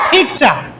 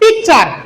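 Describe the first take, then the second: First: The first consonant is aspirated. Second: The first consonant is not aspirated. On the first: The speaker calls it right. "কিন্তু সঠিক উচ্চারণ কি হবে পিকচার" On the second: The speaker calls it wrong. "আমরা এটাকে জানি কি পিকচার"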